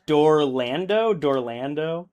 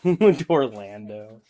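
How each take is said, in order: First: Slow, rising puzzled question; trying the made-up word out, slowly; baffled, drawn-out Dorlando?; puzzled repeat. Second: Slow amused Dorlando, falling; chuckling, drawn-out Dorlando; laughing. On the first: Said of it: "you forgot Dolorado". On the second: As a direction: savour the silly word through a laugh. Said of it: "He's just making shit up now". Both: Real, not acted.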